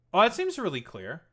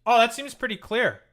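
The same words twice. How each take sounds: First: Said in the usual way. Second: Louder, higher pointed "Oh, that seems pretty clear"; sarcastic emphasis. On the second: Real, not acted. Streamer to chat after the candidate speaks, pointed and sarcastic. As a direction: land it as an obvious told-you-so.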